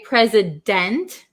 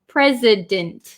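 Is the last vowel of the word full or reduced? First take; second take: full; reduced. First: The last vowel is said fully and clearly. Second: The last vowel is reduced to a short i. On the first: The speaker calls it wrong. "we don't usually say president" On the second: The speaker calls it right. "we usually change this last vowel to like a short I sound"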